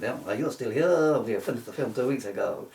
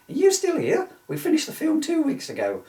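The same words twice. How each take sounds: First: Said in the usual way. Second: High, hammed-up Italian director accent; mock Italian accent. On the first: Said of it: "I wish I'd read his name before I did the accent". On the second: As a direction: play the Italian director, pitched way up. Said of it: "before I did the accent".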